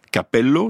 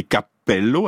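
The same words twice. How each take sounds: First: Capello avec un p bref; p simple italien. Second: Cappello avec le p tenu; p double italien. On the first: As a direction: dites Capello sans doubler le p. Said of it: "ça veut dire cheveux". (Capello, p simple à l'italienne) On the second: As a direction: marquez la pause du double p de cappello. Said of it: "avec deux P". (cappello, p géminé appuyé) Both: Shown as a demonstration.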